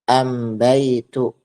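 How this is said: The article begins with an m sound. This is the Himyar dialect form.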